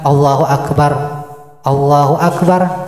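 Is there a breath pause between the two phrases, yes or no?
yes. A breath pause separates the two phrases.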